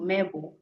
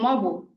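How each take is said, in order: First: The first vowel is an e sound. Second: The first vowel is an o sound. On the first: This is the full, unmerged form. "instead of saying M E B U, mebo" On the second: This is the merged form fluent speakers use. "more fluent speakers say mobo"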